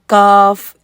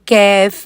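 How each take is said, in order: First: The vowel is a plain, open 'aa' sound. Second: The vowel is fronted toward an 'ai' sound. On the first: The speaker calls it right. "बिल्कुल सीधी सीधी वाली आवाज़ है" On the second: The speaker calls it wrong. "ये यूं नहीं करना"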